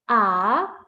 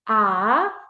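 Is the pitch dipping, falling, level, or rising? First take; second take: rising; rising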